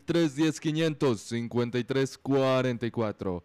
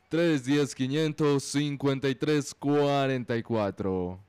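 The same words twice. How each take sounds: First: The number is said at normal, faster speed. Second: The number is said more slowly.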